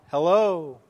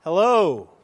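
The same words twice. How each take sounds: First: Drawn-out call, a little less loud; imitated echo reply. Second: Loud, higher hello across a valley; boy calling into the echo valley. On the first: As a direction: play the valley answering back. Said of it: "the reply". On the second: Retold or imitated. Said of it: "called out".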